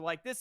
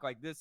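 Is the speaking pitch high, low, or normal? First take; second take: normal; low. First: The voice is at normal pitch. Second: The voice is pitched low. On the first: "at a normal tone" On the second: "at a lower tone"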